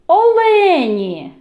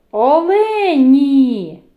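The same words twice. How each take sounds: First: «олені» slow, loud, high, final «і» drawn out; slow stressed word. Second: «Олені» very slow and loud, final «і» held long; very slow stressed word. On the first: Teacher highlighting the vowel for children, stressed. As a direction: draw out the «і» in «олені». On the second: Teacher repeating the word for children, even slower. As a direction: drag «Олені» out, leaning on the «і». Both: Shown as a demonstration. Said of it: "виділяю голосом".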